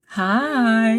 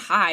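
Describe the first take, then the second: First: The vowel is stretched out long. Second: The word is said short and plain.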